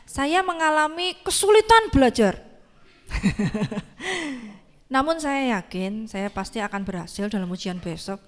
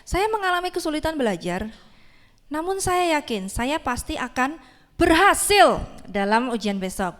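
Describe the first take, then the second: First: It sounds pessimistic and unconvincing throughout. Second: It sounds confident, pausing briefly before berhasil. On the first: The speaker doubts they will really succeed. "ini orangnya eh, pesimis ya ... nggak meyakinkan gitu" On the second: The speaker truly believes they will succeed. "sebelum mau bilang berhasil ada jedanya dikit ya"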